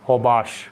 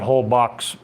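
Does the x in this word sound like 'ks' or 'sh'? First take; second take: sh; ks. First: The x sounds like sh, L silent. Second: The x sounds like ks, with the L. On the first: The speaker calls it right. "the L is silent and the the X is like shh" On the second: The speaker calls it wrong. "So not whole box"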